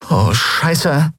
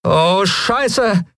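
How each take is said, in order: First: Higher, lightly voiced young woman swearing; a dry shocked curse at the descending ship; Endriel's curse. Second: Much higher voice, falling curse drawn out; Lien's curse. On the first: Endriel sees the pirates land, dry curse. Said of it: "sagte Endriel". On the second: Acted. Lien sees armed pirates charging, dismayed curse. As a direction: let the curse sink in dismay. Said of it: "sagte jetzt auch Lien".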